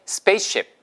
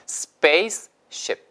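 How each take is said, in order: First: It is said fast with s and sh merged. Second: It is said slowly with separate s and sh.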